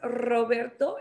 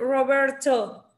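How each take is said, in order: First: The r is rolled with a trill. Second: The r is a soft English-style r. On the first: The name is said as its owner says it. "Si tú dices Roberto, es correcto. ¿Por qué? Porque así se llama" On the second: The name is said as English speakers say it. "vas a escuchar que ellos dicen, oh, nice to meet you, Roberto"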